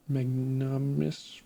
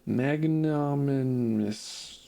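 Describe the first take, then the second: First: Magnanimous mumbled as mag-nice, syllables dropped; stumbled word. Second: Magnanimous drawn out slowly, each syllable mag-nan-i-mous spelled out; careful retry. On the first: Stuck on a hard word, magnanimous slurred. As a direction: trip over magnanimous, squashing the middle. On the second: Reading a hard game word, magnanimous sounded out slowly. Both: Real, not acted. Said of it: "words are hard".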